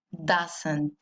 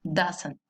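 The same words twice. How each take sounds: First: Doesn't said with an A sound, "dasent", dropping low and soft; careful pronunciation. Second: Doesn't said again with the A sound, "dasen", soft and short; careful pronunciation. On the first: Teacher showing students doesn't is said with an A, low and soft. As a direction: give doesn't a clear A in the first syllable. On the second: Teacher repeating doesn't with an A for the students. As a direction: repeat doesn't quietly with a clear A. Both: Shown as a demonstration. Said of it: "con A".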